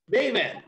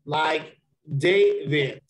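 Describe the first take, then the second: First: David with DAV pitched high; quick, high DAV in David; stress on DAV. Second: Slow, stress the first syllable of David, DAV-id. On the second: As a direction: draw out David with weight on DAV. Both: Shown as a demonstration. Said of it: "Sentence stress, like the emphasis".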